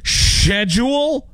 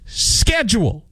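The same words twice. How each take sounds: First: 'Schedule' as a drawn-out, high SHED-yool; mocked sh pronunciation. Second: 'schedule' slow and high, as SKED-jool; decreed pronunciation. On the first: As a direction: say 'Schedule' slowly with sh, incredulous. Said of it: "What do you want me to say next?". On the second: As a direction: say 'schedule' deliberately with sk. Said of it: "So that's how we say it". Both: Shown as a demonstration.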